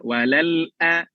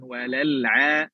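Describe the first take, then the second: First: A glottal catch comes before the final vowel. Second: No glottal catch comes before the final vowel. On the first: The speaker calls it right. "Itu hamzah ya" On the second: The speaker calls it wrong.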